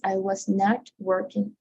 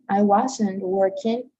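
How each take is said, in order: First: 'Was not' is said as two full words. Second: 'Was not' is contracted into one word. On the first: "or the whole word, the whole phrase" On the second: "the contraction"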